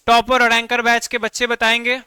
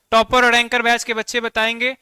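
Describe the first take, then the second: No difference in how they are said.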